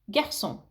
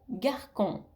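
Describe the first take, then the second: First: The C is pronounced as a soft S sound. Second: The C is pronounced as a hard K sound. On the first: The speaker calls it right. "on garde la cédille et on le, le prononce garçon" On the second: The speaker calls it wrong. "si on enlève la cédille, ça va nous donner le mot garcon"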